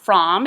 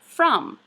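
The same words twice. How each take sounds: First: The vowel is a spelled-out 'o' sound. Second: The vowel is an 'uh' sound. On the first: The speaker calls it wrong. "The word is not from" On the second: The speaker calls it right. "It would be better spelled F R U M"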